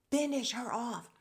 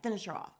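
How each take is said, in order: First: Louder, higher mock command; hammed-up, emphatic demand; insistent urging. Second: Eager mock plea; lightly acted urging. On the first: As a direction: egg them on with full force. Urging on the truck, escalated repeat. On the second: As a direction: egg them on, still fairly contained. Urging on the truck, first take.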